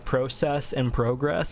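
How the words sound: It is said with a Canadian pronunciation. "Canadians, I know you go like"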